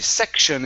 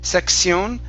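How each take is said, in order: First: The ending is said like 'shun'. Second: The ending is said like 'see-on'. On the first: The speaker calls it right. "It's pronounced shun" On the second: The speaker calls it wrong. "we do not say Sion"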